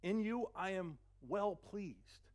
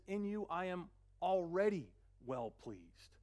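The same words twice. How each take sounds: First: Very slow, tender declaration; slow, gentle divine blessing; voice of God. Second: Already drawn out slowly and stressed; slow, tender with already stressed. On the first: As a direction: linger on every word. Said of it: "it says". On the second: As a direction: lean into already. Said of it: "he says". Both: Acted.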